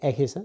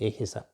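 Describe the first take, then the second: First: The first vowel is an E sound. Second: The first vowel is an I sound. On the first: The speaker calls it wrong. "So it's not going to be Ehisa" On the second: The speaker calls it right. "it's going to be Ehisa. So it is with the I rather than E"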